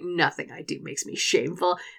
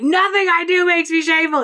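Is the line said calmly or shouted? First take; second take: calm; shouted. First: The line is said calmly, like a quiet mantra. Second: The line is shouted loudly and aggressively. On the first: This is how he actually said it. "It was like" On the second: This is how he did not say it. "it wasn't like he was screaming it at him. It wasn't like"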